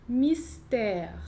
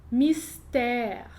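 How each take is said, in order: No difference in how they are said.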